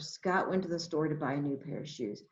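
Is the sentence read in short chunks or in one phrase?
one phrase. It is read as one phrase without pauses. "then you read it all together"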